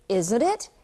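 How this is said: The pitch rises at the end. The speaker is unsure and wants the listener to confirm. "当语调上升的时候，他的意思是要问你"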